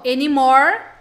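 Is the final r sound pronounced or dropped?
pronounced. The final r sound is clearly pronounced. This is how Americans say it. "para americanos"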